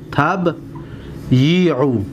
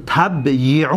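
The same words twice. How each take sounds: First: تبیعو split slowly as tab, yi-u; syllable by syllable. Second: Said in the usual way. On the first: Shown as a demonstration. Teacher showing students where the vowels fall, syllable by syllable. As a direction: hold a long gap after tab in تبیعو. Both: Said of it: "حرکت را دقت بتید".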